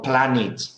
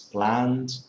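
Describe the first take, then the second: First: The ending is said as an extra syllable. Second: The ending is a bare D sound, no syllable. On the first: The speaker calls it wrong. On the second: The speaker calls it right.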